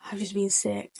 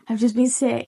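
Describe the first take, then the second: First: Very soft, low-key mimicry of a queasy friend; retold in a small, quiet voice; sheepish confession. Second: Said in the usual way. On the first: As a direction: admit it under your voice. Quoting friend who just vomited.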